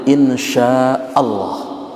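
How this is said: It is said with full, heavy Arabic articulation. The person will really come. The speaker calls it right. "sesuai dengan tajwidnya, makhraj hurufnya"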